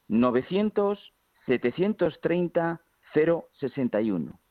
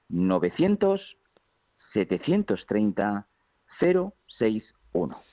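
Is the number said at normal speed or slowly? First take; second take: normal; slowly. First: The number is said at normal speed. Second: The number is said more slowly.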